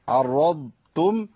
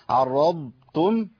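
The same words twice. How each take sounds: No difference in how they are said.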